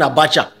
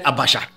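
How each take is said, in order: First: The middle consonant is a 'ch' sound. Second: The middle consonant is a 'sh' sound. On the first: The speaker calls it right. "instead of saying abacha" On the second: The speaker calls it wrong. "he said abasha"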